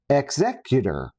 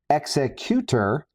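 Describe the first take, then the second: First: It is said like the legal term 'executor'. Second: It is said like the word 'executioner'. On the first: It suggests a legal administrator with paperwork. "like the executor of a will" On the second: It suggests violence and intimidation. "like executioner"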